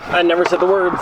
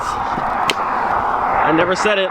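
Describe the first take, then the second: First: Said in the usual way. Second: Breathy hushed whisper, very slow; whispered slowly to himself in disbelief. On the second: Real, not acted. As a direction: drop to a whisper as it sinks in. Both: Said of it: "I just realized".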